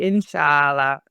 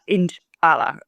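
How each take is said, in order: First: The middle consonant is a soft 'sh' sound. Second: The middle consonant is a sharp 'ch' sound. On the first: The speaker calls it right. "it's supposed to be "Inshallah" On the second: The speaker calls it wrong. "it's not "Inch Allah.""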